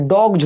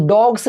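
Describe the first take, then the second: First: डॉग्स ending in a voiced j/z. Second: डॉग्स ending in a voiceless s; wrong s ending. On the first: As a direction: say डॉग्स as "dogj", buzzed at the end. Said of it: "ज होगा". (डॉग्स के अंत में ज की आवाज़) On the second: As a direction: say डॉग्स as "dogss", hissed at the end. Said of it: "नहीं होता है". (डॉग्स के अंत में स की आवाज़) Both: Shown as a demonstration.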